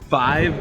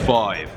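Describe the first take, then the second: First: The vowel is a plain eye sound. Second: The vowel is an oy sound.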